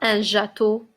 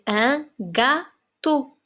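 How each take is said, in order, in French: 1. Le mot commence par un son J doux. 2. Le mot commence par un son G dur. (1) "On ne dit pas"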